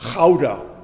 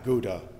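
First: The name is said with a Dutch pronunciation. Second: The name is said with an English pronunciation. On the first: The speaker calls it right. "It's Gouda" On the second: The speaker calls it wrong. "the Dutch don't pronounce the name of that town"

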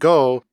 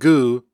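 First: The vowel is pronounced as o. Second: The vowel is pronounced as u. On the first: This is the standard form of the particle. "and go as" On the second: This is how young dialect speakers say it. "and gu, respectively"

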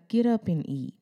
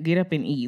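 First: It is said in a soft, caring tone. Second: It is said in a firm, commanding tone. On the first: God is showing empathy. "was he having a little empathy?" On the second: Just do it, no discussion. "like, just do it?"

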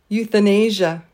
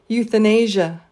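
Both takes have the same delivery.

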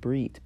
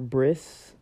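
First: The word ends with a T sound. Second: The word ends with an S sound. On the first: "I think it's pronounced brit, B-R-I-T" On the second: "or bris, B-R-I-S"

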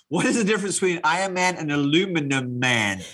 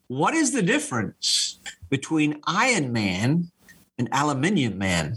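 First: Aluminum is said the American way. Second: Aluminium is said the British way.

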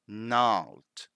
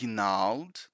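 First: The initial g sound is silent. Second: The initial g sound is pronounced. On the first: The speaker calls it right. "we don't pronounce that G. ... we simply say gnarled" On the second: The speaker calls it wrong. "So it's not gnarled"

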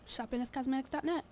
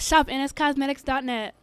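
First: It is said fairly softly. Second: It is said louder and more boldly.

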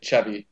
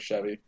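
First: It is pronounced in a Spanish-sounding way. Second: It is pronounced in the usual English way. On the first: This is how Spanish-language commercials say it. "our commercials down here like to say Chevy" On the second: This is the usual way of saying it. "instead of Chevy"

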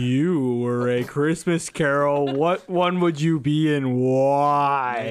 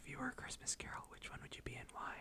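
First: It is said loudly. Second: It is said quietly.

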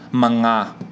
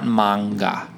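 First: The opening part is said lightly and reduced. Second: The opening part is said fully, like 'manga'. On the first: The speaker calls it right. "like less emphasis manga" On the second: The speaker calls it wrong. "not manga"

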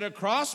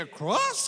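First: It ends with a falling, statement tune. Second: It ends with a rising, questioning tune.

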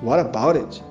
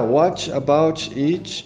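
First: The words run together with reduced sounds. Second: Each word is said separately and clearly. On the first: A fluent speaker says it in natural speech. "Aí você ouve alguém falando" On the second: A learner reads it aloud from the written words. "você lê, aí você fala"

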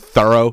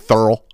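First: The word is said in full, as usual. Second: The word is clipped, sounding like 'thurl'. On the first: The speaker calls it right. "Instead of saying thorough" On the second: The speaker calls it wrong. "they say thorough"

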